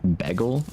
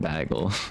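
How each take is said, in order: First: Bagel is said with the standard pronunciation. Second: Bagel is said with a Wisconsin pronunciation. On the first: This is how others say it should be. The speaker calls it right. "apparently it's pronounced like bagel" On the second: This is how people around here say it. The speaker calls it wrong. "every single person that I know pronounces it bagel. And like apparently that's just a Wisconsin thing"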